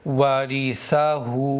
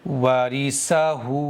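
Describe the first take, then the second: First: The consonant is a 'th' sound. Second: The consonant is an 's' sound. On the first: The speaker calls it right. "सा के साथ में कैसे पढ़ेंगे?" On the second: The speaker calls it wrong. "सीन के साथ में आवाज क्या बनेगी?"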